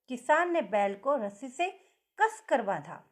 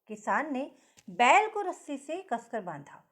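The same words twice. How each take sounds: First: The stress is on कसकर. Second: The stress is on बैल.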